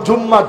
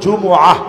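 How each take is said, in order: First: The word has a doubled m and no catch. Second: The word has a glottal catch before the ending. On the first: The speaker calls it wrong. "আমরা বলি জুম্মা, ... এটা ভুল কথা" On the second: The speaker calls it right. "বলতে হবে জুমআহ"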